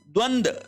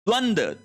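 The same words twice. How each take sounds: Both takes have the same delivery.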